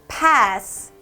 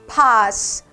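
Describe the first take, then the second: First: It is said in an American accent. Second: It is said in a British accent. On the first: "미국이면 pass" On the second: "영국식 발음으로 들어가면 pass"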